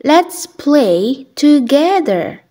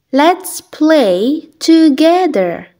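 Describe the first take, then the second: No difference in how they are said.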